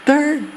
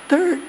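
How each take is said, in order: Both takes have the same delivery.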